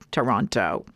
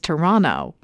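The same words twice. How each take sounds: First: The second T is clearly pronounced. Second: The second T is silent. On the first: The speaker calls it wrong. "not Toronto" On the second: The speaker calls it right. "make the second T silent"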